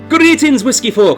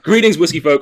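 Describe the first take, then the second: First: It is said in a put-on Irish accent. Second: It is said in the speaker's normal accent.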